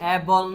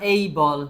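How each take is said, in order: First: The first vowel is a plain 'e'. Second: The first vowel glides from 'e' to 'ee'. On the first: The speaker calls it wrong. "এ বল না" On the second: The speaker calls it right.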